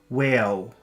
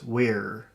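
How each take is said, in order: First: The word ends with an L-like sound. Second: The word ends with an R sound. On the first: The speaker calls it wrong. "if a little child were to pronounce that, it would be whale" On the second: The speaker calls it right. "you know your tongue has to become tense"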